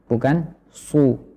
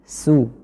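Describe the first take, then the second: First: The s sound is heavy and thick. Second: The s sound is light and thin. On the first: The speaker calls it wrong. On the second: The speaker calls it right. "kita tarik dulu bibir kita agar sinnya menjadi tipis"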